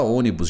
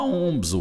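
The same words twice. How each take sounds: First: Said in the usual way. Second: "ônibus" squashed into two syllables, "ombs"; toddler mispronunciation. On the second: Shown as a demonstration. Child still learning to say "ônibus", middle syllable swallowed. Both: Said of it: "Criança não fala ônibus já de cara".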